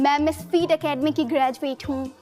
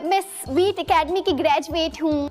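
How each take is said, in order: First: It is said in a disgusted tone. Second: It is said in an excited tone.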